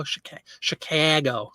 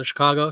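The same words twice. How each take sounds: First: Slow "Chicago" with the middle A fronted, as in "cat"; exaggerated Midwestern A in "Chicago"; lazy Chicago A. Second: Said in the usual way. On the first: Shown as a demonstration. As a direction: say "Chicago" as "shi-KAE-go", dragged out. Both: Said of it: "Yep, that lazy A".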